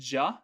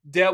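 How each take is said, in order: First: It is slurred together into one syllable, ja. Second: It is said fully as two syllables, de-wa.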